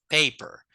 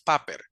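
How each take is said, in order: First: The first vowel is a long gliding 'ay' sound. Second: The first vowel is a plain 'ah' sound. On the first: The speaker calls it right. "porque la A tiene un sonido largo" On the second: The speaker calls it wrong. "Esta palabra no es paper"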